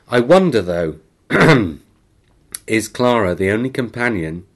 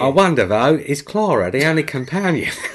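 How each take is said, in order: First: It is read in his normal accent. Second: It is read in an attempted Cockney accent.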